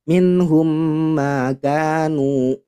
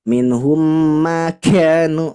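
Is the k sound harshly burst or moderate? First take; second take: moderate; harshly burst. First: The k sound is released moderately. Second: The k sound bursts out too harshly. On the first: The speaker calls it right. "Jadi kita sewajarnya saja" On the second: The speaker calls it wrong. "itu terlalu pecah ya"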